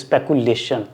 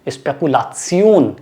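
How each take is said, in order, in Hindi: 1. अंत 'shun' जैसा बोला जाता है। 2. अंत 'see-on' जैसा बोला जाता है। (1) "ये इंग्लिश वर्ड है स्पेकुलेशंस" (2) "उसकी प्रोनाउंसिएशन डिफरेंट होती है"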